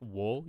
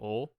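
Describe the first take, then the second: First: It starts with a w sound. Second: It starts directly with the vowel. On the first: The speaker calls it wrong. "you don't usually pronounce W O wo like wo" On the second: The speaker calls it right. "You pronounce it like o"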